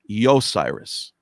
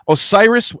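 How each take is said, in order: First: The name begins with a Y sound. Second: The name begins with a plain vowel. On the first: This is the older form of the name. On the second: This is the usual form of the name.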